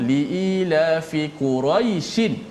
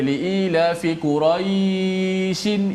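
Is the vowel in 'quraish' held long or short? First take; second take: short; long. First: The vowel in quraish is kept short. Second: The vowel in quraish is drawn out long. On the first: The speaker calls it right. "bila sambung" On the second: The speaker calls it wrong. "tak boleh panjang lah"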